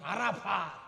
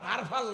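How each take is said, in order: First: The word has three syllables and ends in 't'. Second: The word is short and ends without a 't'. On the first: The speaker calls it right. "আরাফাত এর কথাটা শুদ্ধ করে বলি" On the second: The speaker calls it wrong. "আরফা নয়"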